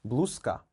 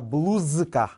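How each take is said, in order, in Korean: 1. K 앞의 자음은 무성음 S입니다. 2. K 앞의 자음은 유성음 Z입니다. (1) "S로 발음을 합니다" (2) "z를 강하게 발음하지 않습니다"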